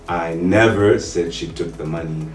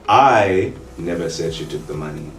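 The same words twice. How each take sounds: First: The stress is on the word never. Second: The stress is on the word I.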